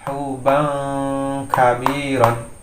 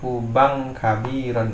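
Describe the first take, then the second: First: The nasal before the k is held long. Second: The nasal before the k is short, not held. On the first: The speaker calls it right. "tapi ditahan" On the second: The speaker calls it wrong. "tidak boleh dibaca hanya ban bang bang kabiron"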